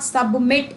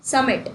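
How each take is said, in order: First: Submit with an audible b, "sub-mit"; sounded b. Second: Submit with no b, "summit"; silent b. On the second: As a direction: leave the b out of submit, straight from s-u to m. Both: Shown as a demonstration. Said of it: "सबमिट में बी नहीं pronounce होता है".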